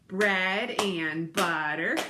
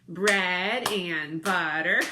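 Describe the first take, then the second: No difference in how they are said.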